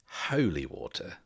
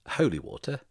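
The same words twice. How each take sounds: First: Said in the usual way. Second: Holy water? asked higher and louder, puzzled; confused. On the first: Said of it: "and he says". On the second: Acted. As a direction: repeat Holy water? as a baffled question, pitch rising up. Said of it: "Cole's kind of confused and says".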